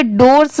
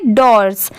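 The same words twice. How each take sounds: First: DORS with a long closed "oh", as in "dohrs"; डोर्स pronounced like "dohrs"; wrong reading. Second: डोर्स with an open "aw", as in "dawrs"; डोर्स pronounced "dawrs", falling at the end; correct reading. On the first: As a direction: say डोर्स with a round "oh" vowel. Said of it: "इसे डोर्स नहीं पढ़ेंगे". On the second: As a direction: say डोर्स lower, with an "aw" vowel. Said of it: "इसे डोर्स नहीं पढ़ेंगे, डोर्स". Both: Shown as a demonstration.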